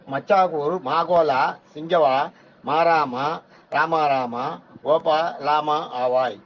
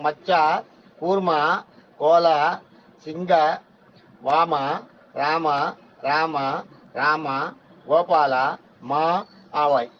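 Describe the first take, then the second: First: The syllables are grouped across the word boundaries. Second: The syllables are grouped into separate whole words. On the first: "அப்படின்றாரு" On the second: "பிரிச்சு படிக்கும்போது எப்படி படிக்கணும்?"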